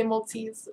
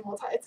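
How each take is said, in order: First: "multis" said the way England says it; English pronunciation. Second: "multis" said her own American way; own pronunciation. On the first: Retold or imitated. Quoting how the viewer says it in England, English "multis". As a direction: imitate the English way of saying "multis". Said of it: "you say multis over in England". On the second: Shown as a demonstration. Teased by English viewer for saying it, American "multis". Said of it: "make fun of me for saying multis".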